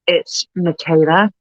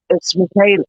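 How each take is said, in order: First: Slow, sarcastic intro with a rising end; sarcastic line delivery. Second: Said in the usual way. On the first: Retold or imitated. Actor introducing herself to a twelve-year-old girl, sarcastically. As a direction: draw the introduction out, lightly sarcastic. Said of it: "so used to being sarcastic in my sketches". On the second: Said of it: "all I need to say is".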